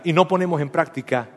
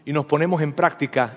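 First: "no" given the corrective stress. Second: Said in the usual way. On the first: Real, not acted. Pastor corrects his misread verse, stressing "no". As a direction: correct the slip by leaning on "no".

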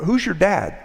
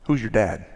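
First: High-pitched, casual asking; light, nosy small-town query; curious question. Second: Mildly malicious question; understated malice. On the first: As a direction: ask it innocently, pitched up. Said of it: "sometimes out of curiosity". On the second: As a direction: ask it to wound, without raising the voice. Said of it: "it was asked out of malice". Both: Retold or imitated.

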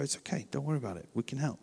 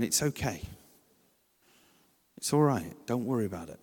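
First: Much softer, hushed and soothing; hushed soothing words to a parent who lost their child; gentle reassurance. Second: Soft, gentle reassurance to a stressed parent; calm them down kindly; softly reassuring a parent whose child melts down. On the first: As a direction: say it quietly to calm a panicked parent. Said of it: "just go". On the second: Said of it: "If you're there going". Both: Shown as a demonstration.

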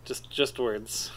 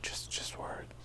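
First: Slow breathy whisper. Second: Hushed whisper, repeating. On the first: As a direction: whisper the words slowly. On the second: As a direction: whisper it back softly. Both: Pretend.

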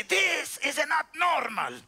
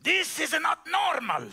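First: Put-on slower Cuban-accented "This is not normal."; Miguel's Cuban accent. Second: Put-on a light Cuban accent, a bit higher and raised; Miguel's Cuban accent. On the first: Showing how the Cuban mechanic said it, slow and accented. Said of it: "This is how he would say". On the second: Preacher quoting his Cuban mechanic, light Cuban accent. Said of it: "Mister Miguel used to say".

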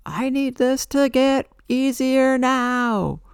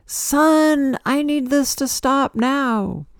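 First: Much higher, louder, slow drawn-out plea; yelling at God. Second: Much higher, louder, slow demanding cry; poetic yell at the sun. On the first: Retelling how she yelled at God, a loud slow demand. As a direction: cry it up to the sky, demanding. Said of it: "I yelled at God". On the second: Addressing the sun on sun day, a loud poetic demand. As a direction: call out to the sun, pleading it stop. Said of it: "poetically like". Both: Retold or imitated.

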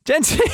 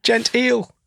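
First: Laughing. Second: Mock posh. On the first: Pretend. Echoing the posh word, laughing. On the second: Mocking the posh word.

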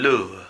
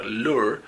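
First: "lure" British style, final R dropped; British accent. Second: "lure" with an American R at the end; American accent. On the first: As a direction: say "lure" as the British would, ending on the vowel. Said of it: "dirían lure". (acento británico, "lure" sin erre final) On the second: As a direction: say "lure" American style, final R sounded. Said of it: "yo tengo un acento americano". (acento americano, "lure" con erre final) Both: Shown as a demonstration.

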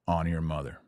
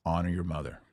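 Both takes have the same delivery.

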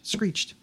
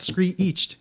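First: "Screeched" said as one quick syllable, clipped and falling. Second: "screeched" drawn out slowly, like "scree-ched" in two beats; wrong two-syllable screeched. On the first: Showing the cohost the right one-syllable "Screeched". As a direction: say "Screeched" in a single beat. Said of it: "It's one syllable". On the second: Correcting a cohost, slowly mimics her wrong "screeched". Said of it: "it's not screeched". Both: Shown as a demonstration.

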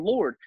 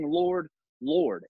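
First: Said in the usual way. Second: "Lord, Lord" with both words leaned on hard; stress on the doubled Lord. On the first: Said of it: "They're not just saying". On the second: Shown as a demonstration. Host stressing the doubled "Lord, Lord" for emphasis. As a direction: press each "Lord" to show the doubling. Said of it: "Lord being there twice is the emphasis".

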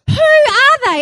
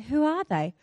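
First: Loud, high-pitched indignant echo; hammed-up disbelieving shout; incredulous outrage. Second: Soft, mild clueless question; imitating a husband who has no idea; unimpressed husband. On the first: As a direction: throw the question back, scandalised. Acted outrage, echoing husband's question. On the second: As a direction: ask it quietly, politely humouring.

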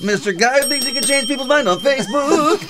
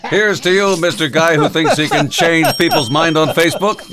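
First: Sung, high, wailing backing-singer echo; sung, belt it like an ad jingle; sung, mock falsetto jingle; parody jingle singing. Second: Higher-pitched parody announcer toast; jingle-style announcer salute; mock ad salute. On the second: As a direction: proclaim a grand mock tribute.

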